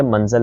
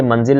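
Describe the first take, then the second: First: मंजिल with short a in the last syllable, man-zal; correct pronunciation demo. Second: मंजिल with short i in the last syllable, man-zil; wrong pronunciation demo. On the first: Teacher correcting the word, demo of मंजिल as man-zal. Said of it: "बल्कि मंजिल लफ्ज़ होता है". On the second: Teacher citing the mistaken form, demo of मंजिल as man-zil. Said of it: "मंजिल लफ्ज़ नहीं होता". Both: Shown as a demonstration.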